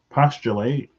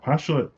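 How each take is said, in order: First: It is pronounced like the verb form. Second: It is pronounced like the noun form. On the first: "Postulate feels like a verb" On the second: "Postulate feels like a noun to me"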